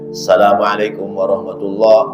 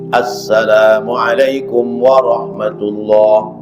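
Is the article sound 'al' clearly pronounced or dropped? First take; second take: dropped; clear. First: The article sound is swallowed and lost. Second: Every sound, including the article, is said clearly. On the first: The speaker calls it wrong. "Jangan ... alif lamnya hilang" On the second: The speaker calls it right. "kalau ngucapin salam yang tegas"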